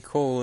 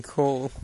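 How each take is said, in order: First: Cool with vowel like "call"; imitated Manchester pronunciation. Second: Cool with long "oo" vowel; contrasting pronunciation. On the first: Quoting Manchester friend's protest, cool sounding like "call". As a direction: say cool almost as "coal". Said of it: "I got her to say call and cool". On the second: Retold or imitated. Quoting friend insisting on the difference, cool with clear oo. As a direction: say cool as "kool". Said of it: "they sounded exactly the same".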